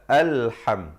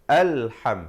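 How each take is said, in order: Both takes have the same delivery.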